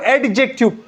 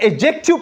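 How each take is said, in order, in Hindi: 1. 'd' की आवाज़ साफ़ तौर पर बोली जाती है। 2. 'd' की आवाज़ साइलेंट रहती है। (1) "बाज लोग इसको एडजेक्टिव बोलते हैं" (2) "यहां पे डी साइलेंट है, ये एडजेक्टिव प्रोनाउंस होता है"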